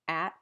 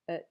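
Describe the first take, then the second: First: The word has a full, clear vowel. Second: The word has a weak schwa vowel.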